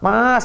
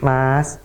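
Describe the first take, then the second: First: It is said in an angry, sulky tone. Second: It is said in a soft, gentle tone. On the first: The wife wakes her husband while scolding him. The speaker calls it wrong. "sambil ngambek-ngambek, sambil marah" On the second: The wife wakes her husband patiently and politely. The speaker calls it right. "pelan-pelan, sopan, santun"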